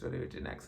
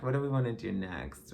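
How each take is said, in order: First: Soft whispered repeat of "What do we do next?"; muttered aside, barely voiced; whispered to herself. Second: Said in the usual way. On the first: Real, not acted. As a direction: drop to a private whisper.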